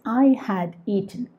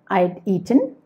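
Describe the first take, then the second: First: The word had is said in full. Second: Had is shortened to a d sound. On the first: "the positive sentence" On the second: "you remove H A. So you have I'd"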